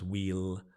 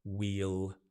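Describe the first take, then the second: First: It is said as one syllable, like wheel. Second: It is said as one syllable, like wheel.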